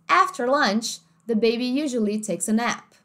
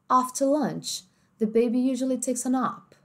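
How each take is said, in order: First: It is said in an American accent. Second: It is said in a British accent. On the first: "em inglês americano ficaria assim" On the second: "No inglês mais britânico, ó como é que fica"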